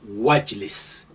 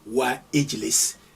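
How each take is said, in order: First: The i vowel is dropped, linking into wajlis. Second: The i vowel of ijlis is pronounced separately. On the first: The speaker calls it right. "you say wajlis. That's alif is still there, but it's suppressed. You don't hear it" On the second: The speaker calls it wrong. "you don't say wa ijlis"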